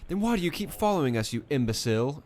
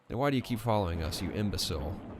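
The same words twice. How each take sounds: First: It is said in a put-on British accent. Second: It is said in the speaker's ordinary accent.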